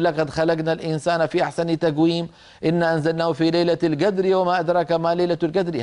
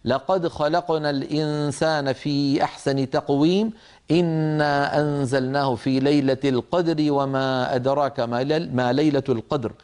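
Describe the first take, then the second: First: Hard g for q in "لقد خلقنا", "تقويم", "القدر"; everyday g replacing qaf in "تقويم" and "القدر"; colloquial gaf recitation. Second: Measured, careful q in "القدر", never g; correct qaf recitation. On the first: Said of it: "لأن هذا الصوت عامي". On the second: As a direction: articulate "تقويم" with a full back-of-throat q. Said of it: "فعلينا أن نقول". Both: Shown as a demonstration.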